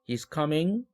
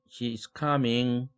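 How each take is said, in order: First: The pitch rises at the end. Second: The pitch stays level at the end. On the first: It asks a question. "의문문도 ... 이삼삼 이렇게 올리는 거" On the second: More speech is to follow. "하고 계속하는 거죠"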